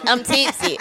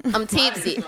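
First: Tipsy and giggly. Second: Tipsy. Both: Real, not acted.

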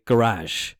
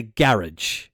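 First: "garage" said guh-RAHZH, slowly; American pronunciation. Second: "garage" said GARR-idge, slowly; Irish pronunciation. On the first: Host showing the American way, "garage" as guh-RAHZH. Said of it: "but they say". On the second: Host comparing with America, "garage" as GARR-idge. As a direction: stress the start of "garage", ending like "ridge". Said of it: "we say". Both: Shown as a demonstration.

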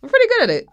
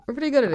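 First: Excited. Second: Said in the usual way. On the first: Real, not acted. Proud joke after tongue twister.

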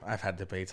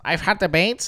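First: Said in the usual way. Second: Self-mocking, slightly higher boast; mock nerdy. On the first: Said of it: "How lame does that sound". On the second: Shown as a demonstration. Making fun of himself for bragging about debates, mock nerdy. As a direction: poke fun at your own nerdy claim. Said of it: "How nerdy".

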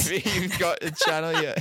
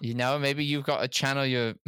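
First: Breaking into giggles; can't hold back a laugh. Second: Said in the usual way. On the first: Real, not acted. Laughing attempt at advice.

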